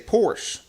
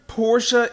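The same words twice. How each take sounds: First: The name is said the common American way. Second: The name is said the European way. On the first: This is how most people in the US say it. "In the U S, most people just say Porsche" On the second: This is the proper original name. "if you're in Europe, Porsche is the proper way to say it"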